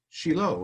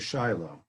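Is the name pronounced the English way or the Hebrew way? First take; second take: Hebrew; English. First: The name is pronounced the Hebrew way. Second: The name is pronounced the English way. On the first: "in Hebrew, it'd be pronounced" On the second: "as opposed to"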